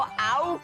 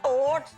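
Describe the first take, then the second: First: The vowel sounds like the one in 'out'. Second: The vowel sounds like the one in 'oat'. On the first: The speaker calls it wrong. "वो आउट्स नहीं होता" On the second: The speaker calls it right. "ओट्स होता है"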